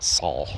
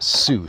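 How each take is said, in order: First: The word sounds like 'Saul'. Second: The word does not sound like 'Saul'. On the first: The speaker calls it wrong. "not not Saul" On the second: The speaker calls it right. "they pronounced it Sault Ste. Marie"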